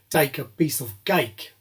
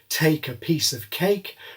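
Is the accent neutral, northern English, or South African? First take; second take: South African; neutral. First: It is said in a South African accent. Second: It is said in a neutral aspirated accent.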